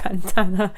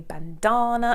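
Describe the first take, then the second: First: The A vowel is said in the ordinary way. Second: The A vowel is said in an unusual way. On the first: The speaker calls it right. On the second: The speaker calls it wrong.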